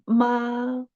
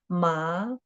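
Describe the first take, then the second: First: It is said with a high level tone. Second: It is said with a rising tone. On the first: "the first tone is not the second tone" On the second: "The second tone should be ma"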